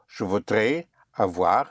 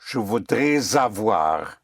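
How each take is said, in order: First: The S is silent, with a break before avoir. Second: The S links into avoir as a Z sound. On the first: "which is fine, yes, if you cut" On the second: "you may push the S into the vowel of avoir"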